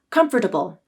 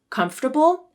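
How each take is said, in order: First: The word is said with four syllables. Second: The word is said with three syllables. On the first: "as four syllables" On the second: "as three syllables"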